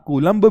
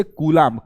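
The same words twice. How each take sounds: First: कूलम्ब with a short a, koo-lumb; the other reading, कूलम्ब with a short a; short a Coulomb. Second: कूलाम्ब with a long aa in the middle, koo-laamb; long aa Coulomb. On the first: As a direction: clip the middle vowel: कूलम्ब. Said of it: "कूलम्ब भी पढ़ते हैं". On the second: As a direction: stretch the middle vowel: कूलाम्ब. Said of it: "बहुत से लोग कूलाम्ब पढ़ते हैं". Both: Shown as a demonstration.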